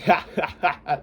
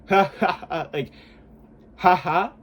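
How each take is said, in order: First: A laugh pushed from the throat; full laugh. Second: A plain, neutral demo laugh; just a neutral laugh, no push. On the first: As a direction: laugh with effort, as shown. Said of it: "you wanna laugh where it's like". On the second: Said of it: "That's, like, neutral". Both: Shown as a demonstration.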